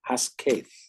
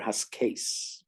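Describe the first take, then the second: First: The word ends with a th sound. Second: The word ends with an s sound. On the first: This is how it was probably pronounced in ancient times. "they probably said Haskaith" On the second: This is a modern pronunciation. "We would pronounce it either Haskate or Haskase"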